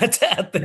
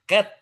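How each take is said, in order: First: The vowel is a long 'ay' sound. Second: The vowel is a short 'a' sound. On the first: The speaker calls it wrong. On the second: The speaker calls it right.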